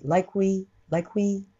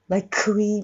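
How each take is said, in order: First: "like we" with the K of "like" swallowed. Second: "like we" with a heavy, separate "ku" before "we"; wrong demo, labour the K in "like we"; overdone K. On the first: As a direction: run "like we" together, K barely there. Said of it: "飲んだ感じ。". (「like we」のクを飲んだ感じで) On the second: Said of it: "みたいにやらない". (「like we」のクを強く言う悪い例) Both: Shown as a demonstration.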